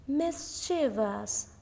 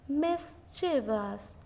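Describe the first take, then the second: The two takes are said the same way.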